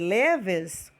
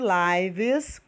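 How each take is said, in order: First: The vowel is short, like 'liv'. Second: The vowel is long, like 'lyv'. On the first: It is the verb meaning someone lives. "ela pode ter a pronúncia de leves, quando ela é verbo" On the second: It is the noun, the plural of life. "pode ter a pronúncia de lives, quando ela é substantivo"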